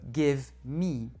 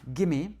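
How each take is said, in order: First: Each word is said fully and separately. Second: The words are blended into one short word. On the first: "au lieu de" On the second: "ou bien"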